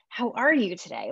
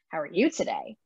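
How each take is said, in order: First: It sounds warm, interested and eager. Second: It sounds mocking and sarcastic. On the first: The asker really wants to hear the answer. "I'm so excited to hear about your day" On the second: The asker does not really care about the answer. "in a very sarcastic way"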